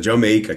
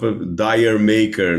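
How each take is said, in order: First: It is said as one word, 'Jamaica'. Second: It is read as two words, 'dire maker'. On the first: The speaker calls it right. "é para soar como Jamaica" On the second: The speaker calls it wrong. "se a gente lê com uma pronúncia mais aproximada da nossa"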